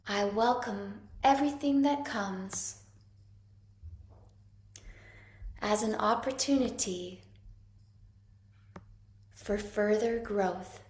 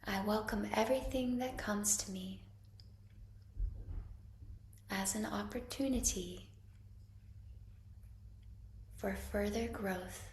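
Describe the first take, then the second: First: It is said loudly. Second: It is said a bit softer.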